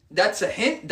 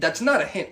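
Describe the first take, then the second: First: Mock-confident statement being held up for rejection; quoted claim. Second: "not" hit hard and falling; stress on not. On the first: Guy repeating what girls think, mildly mocking. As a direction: say it as their mistaken belief. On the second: Acted. Guy correcting girls' idea of hints, "not" stressed. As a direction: contradict firmly, punching "not". Flat contradiction of the quoted claim.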